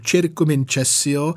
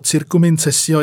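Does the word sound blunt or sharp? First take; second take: sharp; blunt. First: The word is pronounced with crisp, sharp consonants. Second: The word is pronounced with soft, blunt consonants. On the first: The speaker calls it right. "že to je takové pěkně ostré" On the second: The speaker calls it wrong. "je takové nenabroušené"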